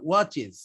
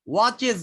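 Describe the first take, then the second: First: ওয়াচেস ending in "iz"; ওয়াচেস with a light i and buzzing z; correct ending. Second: ওয়াচেস with a hard "es"; ওয়াচেস ending sharp s; wrong ending. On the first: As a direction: say ওয়াচেস as "watch-iz". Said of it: "উচ্চারণ সবসময় জেড এর মতো হয়". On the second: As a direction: say ওয়াচেস as "watch-es", hissed. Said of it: "ওয়াচেস না". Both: Shown as a demonstration.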